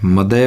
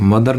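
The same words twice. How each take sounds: First: "मदय" ending on an open vowel, no r; r-less "मदय"; correct pronunciation. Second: "मदर" with final r sounded; Indian-style "मदर"; wrong pronunciation. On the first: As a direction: drop the final r in "मदय". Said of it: "मदय होता है". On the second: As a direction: pronounce the r ending of "मदर". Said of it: "मदर नहीं होता". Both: Shown as a demonstration.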